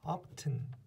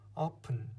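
First: The t sound is pronounced in the middle. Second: The t sound is silent in the middle. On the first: The speaker calls it wrong. "이거 often 아니죠" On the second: The speaker calls it right. "T들이 발음이 안 나고요"

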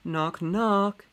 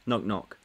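First: It is read in a lively, expressive voice. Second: It is read in a flat, monotone voice. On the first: The speaker calls it right. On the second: The speaker calls it wrong.

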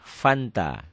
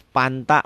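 First: The word begins with an F sound. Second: The word begins with a P sound. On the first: This is the proper pronunciation. The speaker calls it right. "Padahal F, Fanta" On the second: This is how a Sundanese speaker says it. The speaker calls it wrong. "Coba tanya orang Sunda. Mau apa, Mang? Mau panta"

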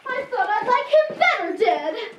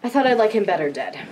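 First: It is said in a put-on Dorothy voice. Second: It is said in his normal voice.

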